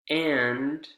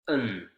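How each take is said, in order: First: The word has its full vowel. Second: The vowel is reduced to a schwa.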